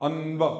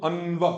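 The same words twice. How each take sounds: The two takes are said the same way.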